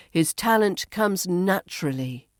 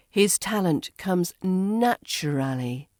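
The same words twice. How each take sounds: First: "naturally" as NATCH-ruh-lee; reduced form. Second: "naturally" as NATCH-uh-RAL-ee; full form. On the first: Teacher models the shortened form for learners, "naturally" as NATCH-ruh-lee. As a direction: run the end of "naturally" together. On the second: Teacher models the long form for learners, "naturally" fully sounded. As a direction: give "naturally" all its syllables. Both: Shown as a demonstration. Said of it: "becomes naturally".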